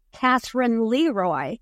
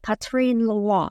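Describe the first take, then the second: First: "Catherine Leroy" read the English way, with a th sound and LEE-roy. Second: "Catherine Leroy" in French, Ca-treen with "Leroy" as luh-RWAH; French pronunciation. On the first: Guest shows how English speakers misread the name, English reading. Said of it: "it looks to us English speakers". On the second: Guest gives the French name for the host, French pronunciation. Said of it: "the best I can do is to say Catherine Leroy". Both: Shown as a demonstration.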